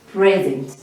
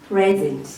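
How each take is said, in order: Both takes have the same delivery.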